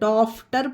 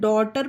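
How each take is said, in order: First: An f sound comes before the t. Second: No f sound comes before the t. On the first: The speaker calls it wrong. "फा का उच्चारण समझकर डॉफ्टर पढ़ें तो ये गलत होगा" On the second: The speaker calls it right. "इसे डॉटर पढ़ेंगे, इसमें जी एच साइलेंट होगा"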